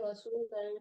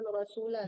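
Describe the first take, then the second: First: The word ends with a nasal n sound. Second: The word ends on a plain vowel without n. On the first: The speaker calls it right. "tapi Rasulan" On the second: The speaker calls it wrong. "jangan Rasula"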